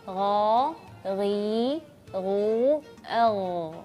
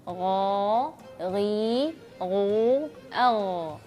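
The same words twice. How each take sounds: No difference in how they are said.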